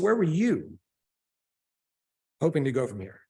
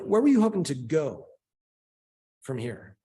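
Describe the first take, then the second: First: The word "you" carries the main stress. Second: The word "where" carries the main stress. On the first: It asks about this person rather than others. "as opposed to other people?" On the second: It asks specifically about the destination.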